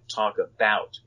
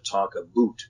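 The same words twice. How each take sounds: First: "About" is said with a general American vowel. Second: "About" is said with a Canadian vowel.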